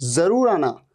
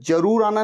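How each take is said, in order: First: The first word begins with a z sound. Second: The first word begins with a j sound. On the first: The speaker calls it right. "ज, जरूर आना" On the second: The speaker calls it wrong. "नहीं, ज नहीं"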